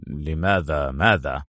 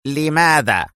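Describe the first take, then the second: First: Low, slow, puzzled question; bewildered. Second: Short stern demand; stern interruption. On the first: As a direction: ask slowly and deep, at a loss. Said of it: "بدت الحيرة على وجه اليوناني". (بحيرة) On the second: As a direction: cut in sternly for a reason. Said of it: "قاطعه هانز في صرامة". (بصرامة) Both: A narrator's reading.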